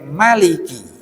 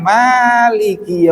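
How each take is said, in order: First: The first vowel is kept short. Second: The first vowel is held long. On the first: The king of the Day of Judgement. "wacaen pendek" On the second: The owner of the Day of Judgement. "wacaen panjang"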